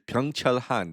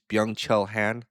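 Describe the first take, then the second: First: The name is pronounced with Korean sounds. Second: The name is pronounced with English sounds. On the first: "That's how you say it in Korean" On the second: "how do I say it in English"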